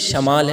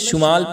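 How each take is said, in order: First: The first vowel is an 'a' sound. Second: The first vowel is a 'u' sound. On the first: The speaker calls it right. "शुमाल नहीं है बल्कि शमाल है, शीन के ऊपर ज़बर के साथ" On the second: The speaker calls it wrong. "हम लोग तलफ़्फ़ुज़ में शुमाल पढ़ते हैं"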